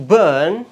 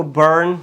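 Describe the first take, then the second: First: برن with a long er and silent r, louder; British burn. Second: American برن with the r sounded; American accent. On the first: Teacher contrasts British burn with American, non-rhotic. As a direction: stretch the vowel in برن, drop the r. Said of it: "British یہ آر کو پروناؤنس نہیں کرتے". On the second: Teacher shows how Americans read burn, American accent. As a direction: colour the vowel of برن with an American r. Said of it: "Americans اس کو برن پڑھ دیتے ہیں". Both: Shown as a demonstration.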